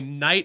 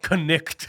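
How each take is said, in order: First: The word starts with an N sound. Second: The word starts with a K sound. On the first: "oh, my knight in shining armor" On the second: "It's really my connect in shining armor"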